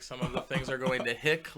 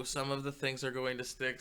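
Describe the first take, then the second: First: Louder, rising punch on "hick". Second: Said in the usual way. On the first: Shown as a demonstration. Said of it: "like my last name".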